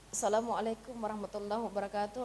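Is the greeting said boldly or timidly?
timidly. The greeting is said timidly, as if held back. The speaker is hiding something and lacks confidence. The speaker calls it wrong. "ada yang kita sembunyikan, itu kan sudah eh, apa namanya tidak sesuai dengan retorika"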